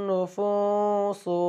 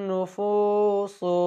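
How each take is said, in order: Both takes have the same delivery.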